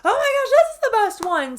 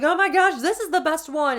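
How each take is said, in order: First: Much higher, louder gushing quote; hammed-up rising excitement; mock gushing. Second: Higher, louder gushing quote; imitating own excitement; mock gushing. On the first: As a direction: gush even harder. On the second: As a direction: gush over the new palette. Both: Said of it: "I'm like".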